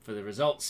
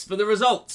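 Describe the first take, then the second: First: Said in the usual way. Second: High, very loud mock-excited shout; big, high-pitched cheer; hyped-up announcement. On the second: Hyping up the quiz results.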